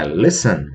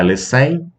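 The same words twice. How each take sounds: First: Listen stressed LIS-ten, falling away after; stress on first syllable. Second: Listen misstressed as lis-TEN; wrongly stressed last syllable. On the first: Teacher correcting the mistake, listen stressed on LIS. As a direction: hit the first syllable of listen and drop the second. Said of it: "Não é listen". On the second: Teacher showing students the mistake, listen stressed on TEN. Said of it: "a sílaba tônica não é a última". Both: Shown as a demonstration.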